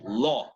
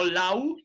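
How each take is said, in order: First: Law with one open O; correct O sound. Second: Law said as "lau"; wrong "au" pronunciation. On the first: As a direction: say Law with no glide. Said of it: "that's right". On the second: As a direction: slowly say law with an "ow" diphthong. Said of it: "Noten, no law". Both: Shown as a demonstration.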